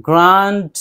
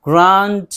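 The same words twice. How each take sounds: Both takes have the same delivery.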